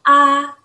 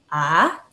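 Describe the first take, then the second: First: The pitch stays high and level. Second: The pitch rises from middle to high. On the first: "nada tinggi datar seperti ini" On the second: "nada dua naik"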